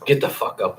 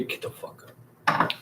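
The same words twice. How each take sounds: First: Said in the usual way. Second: Hushed breathy whisper, voice gone; a sudden secret whisper to wake him; whispered urging. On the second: Pretend. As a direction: whisper it into his ear so only he hears. Whispered aside to sleeping Al.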